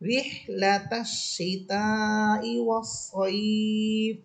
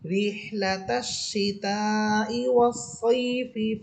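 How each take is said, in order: First: The vowel in 'saif' is stretched long. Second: The vowel in 'saif' is kept short. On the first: The reader stops at the end of the verse. "ওয়াস সাইফ বলে আমি থামতেছি ... এখানে একালিফ টান হচ্ছে" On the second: The reader joins it to the next verse. "কোনো টান হবে না"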